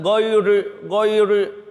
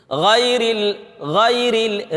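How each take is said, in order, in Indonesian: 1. Bunyi r-nya berat dan penuh. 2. Bunyi r-nya ringan dan tipis. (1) "bukan ghairi ghairi" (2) "Apabila ra-nya berbaris kasrah"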